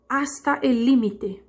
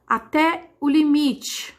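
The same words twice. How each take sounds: First: Slow Spanish phrase, "límite" stressed on LÍ. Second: Slow phrase with "limite" stressed on MI; Portuguese stress. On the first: Teacher translating the phrase for students, "límite" stressed on LÍ. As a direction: say it slowly in Spanish, hitting LÍ in "límite". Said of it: "Em espanhol, eu vou dizer límite". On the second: Teacher giving the phrase in Portuguese, "limite" stressed on MI. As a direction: spell out "limite" slowly, weight on MI. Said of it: "O mi é o mais forte em português". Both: Shown as a demonstration.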